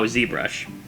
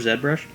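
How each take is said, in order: First: The name is said in an American way. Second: The name is said in a non-American way. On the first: The speaker calls it right. "because it's American" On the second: The speaker calls it wrong.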